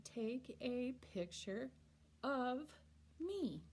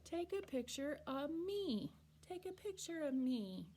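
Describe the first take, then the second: First: Slow, with of said fully and apart; each word separated, of spoken in full; careful written form. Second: Of said as a quick uh, picture of me run together; of blurred into uh before me; casual speech. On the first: Teacher reading the written form, slow and careful. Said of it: "we write". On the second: Teacher showing casual talk, of run together. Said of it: "we say". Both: Shown as a demonstration.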